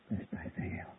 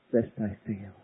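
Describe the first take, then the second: First: Whispered, breathless fear. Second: Said in the usual way. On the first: Acted. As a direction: let it drop to a whisper. Whispered plea.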